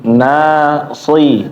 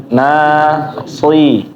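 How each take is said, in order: The two takes are said the same way.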